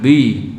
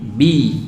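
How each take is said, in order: First: The syllable is heavy and thick. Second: The syllable is light and thin. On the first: The speaker calls it wrong. "jangan bi ya" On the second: The speaker calls it right. "Bi tipis"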